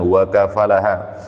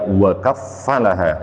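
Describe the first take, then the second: First: The f sound is short and single. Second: The f sound is held and doubled. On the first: The reading makes Zakariya the one who took care of Maryam. "diikutkan kepada sulasi mujarad" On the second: The reading makes Allah the one who gave Maryam into Zakariya's care. "ain fiilnya tersebut diberi tasdid"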